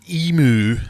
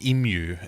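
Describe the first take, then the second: First: It is said with an American pronunciation. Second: It is said with a non-American pronunciation. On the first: The speaker calls it wrong. "if you're American" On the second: The speaker calls it right. "like the rest of the world, you say that correctly"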